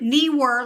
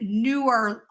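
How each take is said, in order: First: The first syllable sounds like 'knee'. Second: The first syllable sounds like 'new'. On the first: "like kneecaps" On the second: "opposite of older"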